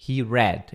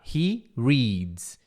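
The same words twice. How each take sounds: First: "read" as "red", no final s; past-tense pronunciation. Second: "reads" as "reeds", long ee; present with S. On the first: English teacher showing third person past, "read" as "red". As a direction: say "read" with a short e. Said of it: "E pronuncia read". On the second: English teacher showing third person present, "reads" as "reeds". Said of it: "terceira pessoa bota o S". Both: Shown as a demonstration.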